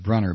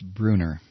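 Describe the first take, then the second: First: The first vowel is short, as in 'run'. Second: The first vowel is long, as in 'true'. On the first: The speaker calls it wrong. "I've been saying Brunner because there's two N's in it" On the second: The speaker calls it right. "apparently it's, according to Bill, who emailed me, it's Bruner"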